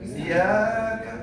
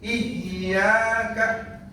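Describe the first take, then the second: First: The y sound is short and single. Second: The y sound is held long and doubled. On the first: It is addressed to the sun. The speaker calls it wrong. "enggak tasdid" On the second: It is addressed only to God. The speaker calls it right. "Tapi kalau tasdid"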